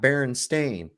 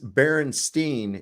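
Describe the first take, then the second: First: The last syllable sounds like 'stain'. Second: The last syllable sounds like 'steen'. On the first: The name is spelled with -stain. "not S T A I N" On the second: The name is spelled with -stein. "it's S T E I N"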